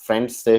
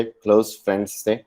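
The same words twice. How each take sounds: First: Said in the usual way. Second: close lifted with a rise, friends थे trailing off softer; correcting himself by stressing close; stress on close. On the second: Shown as a demonstration.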